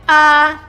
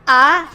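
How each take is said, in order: First: The pitch stays level, without any emotion. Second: The pitch sounds doubtful, like a question. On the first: "The one with the flat line, you must say without any emotion" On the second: "the second is like a doubt"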